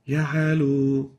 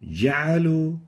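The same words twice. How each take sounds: First: The j sound is weak and barely audible. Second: The j sound is strong and clear. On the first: The speaker calls it wrong. "we can barely hear the jim" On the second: The speaker calls it right. "the right way of pronouncing it is like this"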